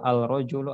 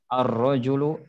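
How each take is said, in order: First: The l is pronounced before the r. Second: The l merges into a doubled r. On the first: The speaker calls it wrong. "bukan dibaca" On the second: The speaker calls it right. "lamnya dilebur dan dibuang"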